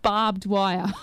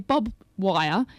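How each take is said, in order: First: The first word is barbed, with r and d. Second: The first word sounds like bob, without r or d. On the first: The speaker calls it right. "instead of barbed wire" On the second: The speaker calls it wrong. "people also say bob wire"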